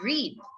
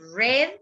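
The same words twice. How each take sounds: First: The word rhymes with 'need'. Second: The word rhymes with 'bed'. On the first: It is the present tense. The speaker calls it wrong. "esta no puede ser read" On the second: It is the past tense. The speaker calls it right. "the pronunciations of this bird in the past is read"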